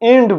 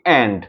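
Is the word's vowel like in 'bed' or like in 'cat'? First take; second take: bed; cat. First: The vowel is a closer 'e' sound. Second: The vowel is an open 'æ' sound. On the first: The speaker calls it wrong. "এন্ড বলি না" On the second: The speaker calls it right. "বলি কি অ্যান্ড"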